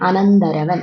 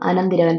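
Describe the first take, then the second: First: The vowel after 'anant' is an 'a' sound. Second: The vowel after 'anant' is an 'i' sound. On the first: This is the correct standard form. The speaker calls it right. "പദശുദ്ധി അങ്ങനെയല്ല correct, അനന്തരവനാണ്" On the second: This is the common everyday form. The speaker calls it wrong. "അനന്തിരവൻ എന്നല്ലേ നമ്മൾ സാധാരണ പറയുക"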